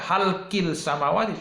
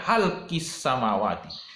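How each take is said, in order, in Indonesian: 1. Bunyi L terdengar sebelum samawati. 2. Bunyi L tidak terdengar, menyatu dengan S. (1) "bukan dibaca halkil samawati" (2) "tapi dibaca halkis samawati"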